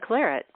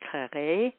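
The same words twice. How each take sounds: First: The word is said with an English pronunciation. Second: The word is said with a French pronunciation. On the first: "find that a hard word to pronounce, so it became claret" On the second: "my French pronunciation isn't that great, but it'd probably be more like claret"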